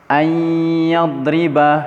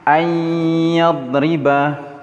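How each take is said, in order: The two takes are said the same way.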